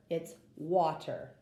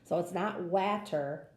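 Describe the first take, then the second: First: "water" with an ah like wah; correct vowel. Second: "water" with a flat a as in cat; wrong vowel. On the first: Teacher giving the right "water" after the wrong one. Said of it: "it's not water, it's water". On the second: Teacher contrasting the wrong "water" reading. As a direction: read "water" the wrong way, a like in hat. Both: Shown as a demonstration.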